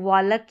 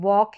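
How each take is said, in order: First: The L is sounded. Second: The L is silent. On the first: The speaker calls it wrong. "इसको वालक या टॉलक नहीं पढ़ सकते" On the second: The speaker calls it right. "वॉक है"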